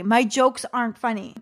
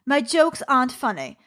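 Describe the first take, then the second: First: Said in the usual way. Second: Inner critic's line in a put-on British accent; bad British accent. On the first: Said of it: "That's my creative anxiety". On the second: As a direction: say it lightly in a mock British accent. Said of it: "British woman with a bad British accent".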